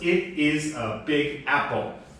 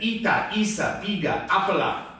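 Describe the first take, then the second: First: Each word ends on its final consonant. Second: Each word ends with an added vowel. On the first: "the sentence was" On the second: "they always want to say a vowel sound at the end"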